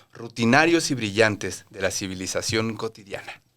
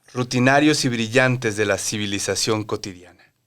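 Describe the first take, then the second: No difference in how they are said.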